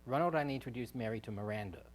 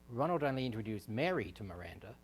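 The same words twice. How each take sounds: First: The stress is on Miranda. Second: The stress is on Mary.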